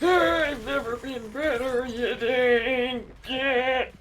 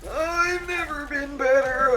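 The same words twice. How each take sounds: First: High voice, slow on the insult; character voice. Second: High, hammy character voice. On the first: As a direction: drag out the insult. Repeated line, slowed ending. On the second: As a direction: play it like a cartoon hero. Repeating line in a voice. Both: Retold or imitated.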